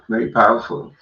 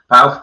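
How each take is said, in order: First: Said in the usual way. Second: "Powerful" said louder with a rise; "Powerful" repeated loud and rising for emphasis; emphatic echo. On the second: Real, not acted.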